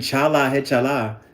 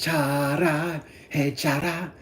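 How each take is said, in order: First: The title is said in an English way. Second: The title is said in a Japanese way.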